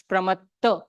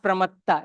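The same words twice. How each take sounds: First: "pramatta" with a short schwa ending; correct short ending. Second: "pramatta" with a long open final AA; wrong long ending. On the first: Teacher correcting the pronunciation, "pramatta" ending in a short uh. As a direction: end "pramatta" on a neutral uh, not aa. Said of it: "it's pramatta". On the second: Teacher showing the mistaken form, "pramatta" ending in long AA. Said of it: "It's not pramatta". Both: Shown as a demonstration.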